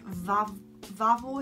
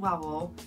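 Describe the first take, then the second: First: The name begins with a V sound. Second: The name begins with a W sound. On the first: The speaker calls it right. "It's called Vavel, I think" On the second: The speaker calls it wrong. "it's not called Wawel"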